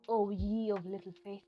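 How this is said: It is said in a calm, relaxed tone.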